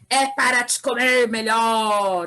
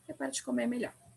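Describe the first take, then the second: First: It is said with excited, exclamatory emotion. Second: It is said flatly, ending like a statement.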